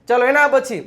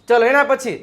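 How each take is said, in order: No difference in how they are said.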